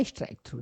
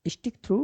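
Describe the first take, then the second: First: स्ट्राइक through with "str" and a long "eye" vowel; alternative reading. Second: स्टिक through with a short i, "stik"; variant reading. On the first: Teacher shows learners the other reading, स्ट्राइक with "eye" sound. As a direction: say स्ट्राइक through, first word rhyming with "like". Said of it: "कुछ लोग स्ट्राइक through पढ़ते हैं". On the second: Teacher shows learners one reading of the option, स्टिक with short i. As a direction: say स्टिक through, first word rhyming with "tick". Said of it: "कुछ लोग उसको स्टिक through पढ़ते हैं". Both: Shown as a demonstration.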